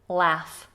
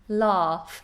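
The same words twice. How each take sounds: First: The vowel is short, American style. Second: The vowel is long, British style. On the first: "In American English, it's a short vowel" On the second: "We have this very long vowel in British English"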